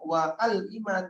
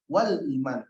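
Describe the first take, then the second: First: A glottal stop separates wa from al. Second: Wa runs straight into al without a break. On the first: The speaker calls it wrong. "tolong jangan dibaca" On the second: The speaker calls it right. "tapi wal iman, sambungkan saja"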